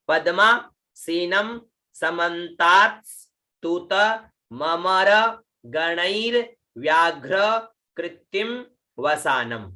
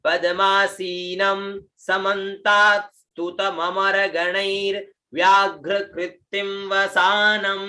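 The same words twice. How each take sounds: First: Each word set apart by a pause; word-by-word model. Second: Words linked in one level chant-like line; joined-up recitation. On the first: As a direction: read it out piece by piece for learners. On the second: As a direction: recite the whole line without breaks, last vowels held. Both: Shown as a demonstration. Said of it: "देखिए".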